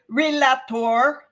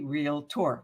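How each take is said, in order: First: An extra vowel is heard between L and T. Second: No vowel is heard between L and T. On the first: The speaker calls it wrong. "There is no A between the L and the T" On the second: The speaker calls it right. "It's actually realtor"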